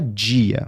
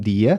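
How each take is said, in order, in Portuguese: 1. O d é falado como um som de j. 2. O d é falado como um d simples. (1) "a mania de falar o T e o D muitas vezes como tch e dja" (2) "tem brasileiros que falam dia"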